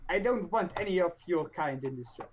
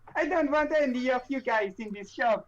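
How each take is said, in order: First: It is said in a normal voice. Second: It is said in a put-on Italian accent.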